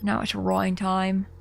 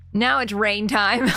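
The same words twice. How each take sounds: First: Rain said like Rhine, ROYN; Rhine time. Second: Rain said with a plain ay vowel; rain time. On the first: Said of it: "feel like I have to say it in the accent". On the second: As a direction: say rain as in weather. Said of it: "No, it doesn't sound as good". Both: Shown as a demonstration.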